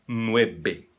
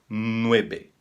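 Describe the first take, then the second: No difference in how they are said.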